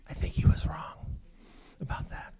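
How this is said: It is said in a whisper.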